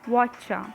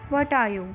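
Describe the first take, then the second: First: The words blend into one shortened word. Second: Each word is said separately and in full.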